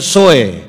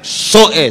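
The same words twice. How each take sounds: First: The word is said plainly without pressure. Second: The word is said with forceful pressure. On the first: The speaker calls it wrong. "jangan bilang Soe" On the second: The speaker calls it right. "Harus pakai tekan begitu"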